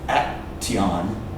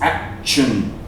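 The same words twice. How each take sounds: First: The middle consonant is a plain t sound. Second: The middle consonant is a ch sound. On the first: The speaker calls it wrong. "you don't say action" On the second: The speaker calls it right. "It's action"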